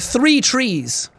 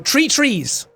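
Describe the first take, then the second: First: Three begins with a clear TH sound. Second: Three begins with a plain T sound. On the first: The speaker calls it right. "I started really pronouncing the T H sound" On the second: The speaker calls it wrong. "saying think and tree is just confusing"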